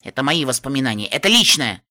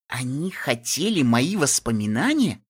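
First: Firm, stamping refusal; angry. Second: Said in the usual way. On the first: Acted. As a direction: insist hotly on мои. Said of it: "топнула я".

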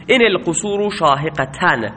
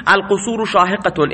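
First: ان stressed and شاهقتن ending in -an, shaheqatan; accusative reading. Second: القصور شاهقتون read with final -un, shaheqatun; plain nominative ending -un on شاهقتون. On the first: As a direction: lean on ان, close شاهقتن with -an. (ان با تأکید و شاهقتن با تنوین فتحه) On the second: (شاهقتون با تنوین ضمه، شاهقتون) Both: Shown as a demonstration.

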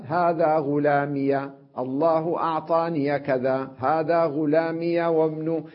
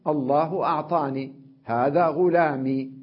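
First: Slow, غلامي and أعطاني ending in -iya; linking with fatha. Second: أعطاني and غلامي ending in ee; pause on silent ya. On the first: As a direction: open the ya of غلامي and أعطاني, running on. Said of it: "مشى وصل". (فتح الياء عند الوصل) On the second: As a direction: stop on the unvowelled ee of أعطاني and غلامي. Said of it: "وقف عليها بإسكانها". (وقف بإسكان الياء) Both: Shown as a demonstration.

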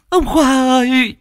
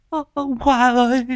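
First: High, slow, loud anguished wail; loud wailing cry. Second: High keening call for the dead; wailing cry. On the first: Grieving widow screaming for her dead husband. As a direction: let the grief burst out. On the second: Grieving widow wailing for her dead husband. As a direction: cry out his name in grief. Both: Acted.

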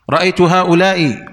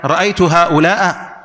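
First: هؤلاء kept ending in "i", haa'ulaa-i; kasra ending. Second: هؤلاء ending in "a", haa'ulaa-a; wrong fatha ending. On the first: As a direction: say هؤلاء with a final short "i". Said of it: "مثال مبني على الكسر". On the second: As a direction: slowly swap the ending of هؤلاء to a short "a". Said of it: "لا، كلمة تلزم حالة واحدة". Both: Shown as a demonstration.

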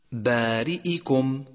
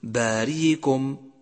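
First: بارئكم with the hamza clearly shown, a little slow. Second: باريكم with the hamza softened into ya; dropped hamza. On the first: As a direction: show the hamza in بارئكم plainly. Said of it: "يجب بيانها". (بيان الهمزة في بارئكم) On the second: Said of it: "فلا تقل". (خطأ إسقاط الهمزة في باريكم) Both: Shown as a demonstration.

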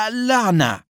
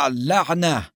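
First: High, drawn cry of frustration; shouted curse. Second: Said in the usual way. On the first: A narrator's reading. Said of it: "جاء دور أدهم ليصيح". (صيحة لعن بنبرة مرتفعة) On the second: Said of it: "لم يزد سائق الإسعاف على أن قال".

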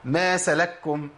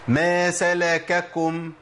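First: Slow "ما سلككم" as ma salakkum, one doubled k; "ما سلككم" with first kaf silenced into the second; merged kafs. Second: Slow chanted "ما سلككم", salaka-kum with each kaf distinct; drawn-out "ما سلككم", two separate k syllables; both kafs voweled. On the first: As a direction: recite "سلككم" swallowing the a between the kafs. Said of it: "سكنت الكاف وأضغمتها". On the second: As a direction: recite "سلككم" with a clear a after the first kaf. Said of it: "عندي كاف مفتوحة وكاف مضمومة". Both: Shown as a demonstration.

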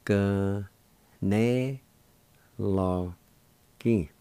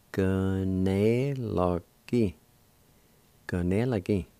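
First: "G, ne, lo, ki" said as four separate syllables with pauses; teacher splitting "G, ne, lo, ki" into single syllables. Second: "G, ne, lo, Ki" strung together quicker, then "Kanela ki" as a joined word; teacher blending the syllables into "Kanela ki"; syllables run together. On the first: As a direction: break "G, ne, lo, ki" apart slowly for the learner. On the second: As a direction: join up "Kanela ki" smoothly after the slow take. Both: Shown as a demonstration. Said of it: "It's pronounced like this".

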